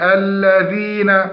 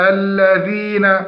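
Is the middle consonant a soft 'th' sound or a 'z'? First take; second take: soft th; soft th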